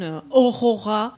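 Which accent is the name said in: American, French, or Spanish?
French. The name is said with a French accent. The speaker calls it wrong. "or they pronounce it like in French pronunciation"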